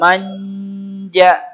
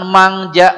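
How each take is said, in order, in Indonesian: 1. Sengau sebelum j itu bunyi n panjang. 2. Sengau sebelum j itu bunyi ng. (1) "N J N-nya dilamain" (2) "Jangan mangja, mangja aja bukan"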